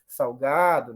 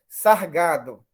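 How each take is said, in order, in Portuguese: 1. A sílaba termina com uma semivogal parecida com w. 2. A sílaba termina com um som de r. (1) "ela diz que ocorreu como semivogal" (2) "ela ia falar sargado"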